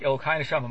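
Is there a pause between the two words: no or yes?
no. The two words run together in one phrase. The soul itself is God. The speaker calls it wrong. "don't say Elokai Neshama in one phrase"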